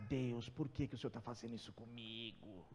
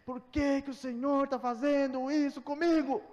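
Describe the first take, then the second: First: Much softer, lower self-pitying whine; whiny complaint to God. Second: Louder, higher, furious yell; furious shout at God. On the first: Pretend. Believer whining to God over a messy house, soft lower moan. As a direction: moan it under your breath like a sulking believer. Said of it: "Aí você vai pra Deus e fala". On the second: Retold or imitated. Preacher retelling yelling at God in broken-down car, loud furious shout. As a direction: hurl it at heaven from the stalled car. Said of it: "eu falei".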